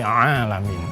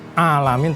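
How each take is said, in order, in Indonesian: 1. Dimulai dengan bunyi tenggorokan yang tegang. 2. Dimulai dengan vokal biasa, tanpa bunyi tenggorokan. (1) "Ada ada suara Arabnya ya" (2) "Ain itu tidak boleh uh, alamin"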